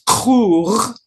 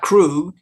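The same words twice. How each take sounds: First: The name is said in a Klingon-style pronunciation. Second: The name is said in plain English pronunciation. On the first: The speaker calls it right. "it's Krug" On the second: The speaker calls it wrong. "Krug is not Krug"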